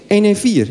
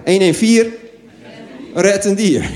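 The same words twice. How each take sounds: First: Said in the usual way. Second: Jingle-like slogan read. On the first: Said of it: "wat je dan moet bellen". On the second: Shown as a demonstration. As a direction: sell the hotline as an ad. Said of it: "dat is de slogan".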